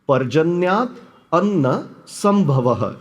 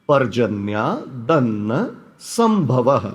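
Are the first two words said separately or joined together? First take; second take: separately; joined. First: The first two words are said separately. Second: The first two words are joined together.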